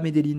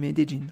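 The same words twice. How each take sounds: First: The name is said in a non-local way. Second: The name is said the local Colombian way. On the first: The speaker calls it wrong. "pas Medellín" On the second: The speaker calls it right. "qu'on prononce ici"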